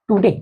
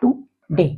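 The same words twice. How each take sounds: First: Said in the usual way. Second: Today said slowly, syllable by syllable; teacher models टुडे as to-day in two beats; model word today. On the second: Shown as a demonstration. Teacher to class, modelling a two-syllable word. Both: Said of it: "जैसे".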